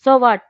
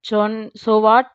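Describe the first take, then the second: First: Tossed off, careless and breezy. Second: Slow drawn-out mock of a careless so what; mother mimicking daughter's breezy reply, slow; mocking imitation. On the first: A narrator's reading. Daughter shrugging off her mother, careless. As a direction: brush it off without caring. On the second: Mother complaining to husband, slow mocking imitation. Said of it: "అంటూ ఎంత ఈజీగా అనేసి".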